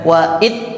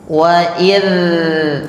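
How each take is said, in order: First: The final consonant stops the air abruptly. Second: The final consonant keeps flowing with continuous air. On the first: The speaker calls it wrong. "itu terhenti suaranya" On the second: The speaker calls it right. "Jadi mengalir suaranya"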